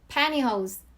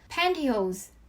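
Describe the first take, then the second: First: The t is dropped, sounding like n. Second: The t sound is clearly pronounced. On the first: "니은 발음으로 이렇게 편하게" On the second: "T 발음을 해주셔도 되고"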